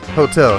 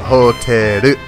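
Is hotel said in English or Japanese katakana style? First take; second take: English; katakana. First: It is said with ordinary English pronunciation. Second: It is said katakana-style with an added final vowel. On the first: "The first one is hotel" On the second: "the way they pronounce them is like katakana"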